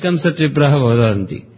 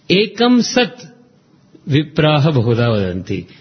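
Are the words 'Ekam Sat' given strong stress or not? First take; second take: not stressed; stressed. First: Ekam Sat gets no extra stress. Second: Ekam Sat is strongly stressed. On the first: The speaker calls it wrong. "no, not like that" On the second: The speaker calls it right. "You have to lay stress on Ekam Sat"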